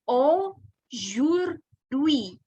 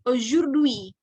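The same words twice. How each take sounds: First: The word is said slowly and carefully. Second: The word is said quickly.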